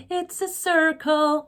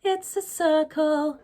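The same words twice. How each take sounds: First: American hard R. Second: British, no hard R. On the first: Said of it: "I don't sing like that". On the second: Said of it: "I would sing it". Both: Shown as a demonstration.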